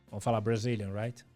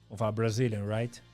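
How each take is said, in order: No difference in how they are said.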